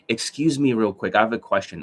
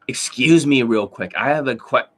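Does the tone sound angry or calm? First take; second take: calm; angry. First: It sounds calm and polite. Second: It sounds angry and harsh.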